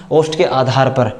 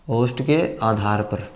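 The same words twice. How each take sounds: First: Said in the usual way. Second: Slow and softer, lower, for the students to copy; slow quiet dictation. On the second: Shown as a demonstration. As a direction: say it slowly and softly to write down. (धीरे और धीमी आवाज़ में लिखवाते हुए) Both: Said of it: "चलिए अब दूसरा पढ़ते हैं".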